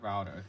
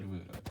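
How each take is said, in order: First: It is said with an American pronunciation. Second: It is said with a British pronunciation. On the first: "in my states uh, and probably other states I call it a router" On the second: "in the U K they call it router, like pronounce it router"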